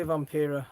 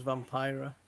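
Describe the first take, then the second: First: Vampira with a long ee, vam-PEE-ra; own way. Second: Vampira with an eye sound, vam-PIE-ra; other way. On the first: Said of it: "I say Vampira". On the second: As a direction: Vampira said the way Blood says it. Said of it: "Blood says Vampira". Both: Shown as a demonstration.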